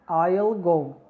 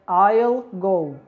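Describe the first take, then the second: First: Will is shortened and joined onto the pronoun. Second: Will is shortened and joined onto the pronoun.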